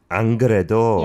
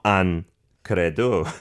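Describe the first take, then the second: First: It is said in one breath, without a pause. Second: It is split, with a pause between the words.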